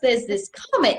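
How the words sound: It is said in a put-on British accent.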